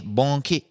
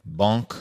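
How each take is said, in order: First: "Banque" in two syllables, bon-KAY; "Banque" said higher, as a tentative "bon-kay". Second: "Banque" said as "bonk", ending on a hard k; French-style "Banque", one syllable closing on k. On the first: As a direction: sound out "Banque" with an extra "kay" ending. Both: Shown as a demonstration. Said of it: "I think it just is bank".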